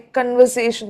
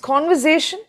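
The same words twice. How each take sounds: First: The stress is not on the third syllable. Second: The stress is on the third syllable. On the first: The speaker calls it wrong. "which is wrong" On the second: The speaker calls it right. "A is in caps, capital letter. so there you give the stress"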